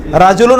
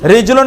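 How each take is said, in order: First: রাজুলুন with an open "ra" at the start; "a" vowel after R. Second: রিজলুন with "ri" at the start; "i" vowel after R. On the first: Teacher quizzing class on the word for man, রাজুলুন said with "ra". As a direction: say রাজুলুন with zabar on the R, "ra-ju-lun". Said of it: "শুধুমাত্র কি উচ্চারণ ভিন্ন". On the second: Teacher quizzing class on the word for foot, রিজলুন said with "ri". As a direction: say রিজলুন with zer under the R, "rij-lun". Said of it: "রায়ের নিচে জের". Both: Shown as a demonstration.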